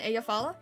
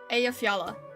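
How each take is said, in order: First: The middle J sound is left silent. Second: The middle J is pronounced like a Y. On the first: "if the J is always silent" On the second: "Not silent, just pronounced as Y?"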